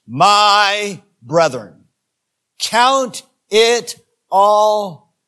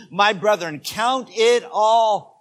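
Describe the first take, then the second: First: Drawn out, very slow and loud; slow loud suspense before a shocking line; slow dramatic buildup. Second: Drawn out, rising to a shout; slow shouted buildup. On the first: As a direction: stretch each word to build suspense. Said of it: "make a statement that's going to shock you". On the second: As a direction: stretch it then shout count it all. Rereading verse with emphasis. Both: Shown as a demonstration.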